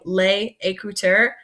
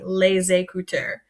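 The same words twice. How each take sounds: First: A pause separates the two words. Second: The two words run together with a z sound. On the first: The speaker calls it wrong. "Instead of saying les écouteurs and pausing" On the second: The speaker calls it right. "bring that word together and kind of make one really long word"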